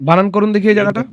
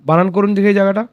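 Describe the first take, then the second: The two takes are said the same way.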